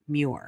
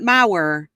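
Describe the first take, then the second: First: The surname is said as 'Muir'. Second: The surname is said as 'Mauer'. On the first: The speaker calls it right. "It is pronounced Terry Dunn Muir" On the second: The speaker calls it wrong. "Not Mauer"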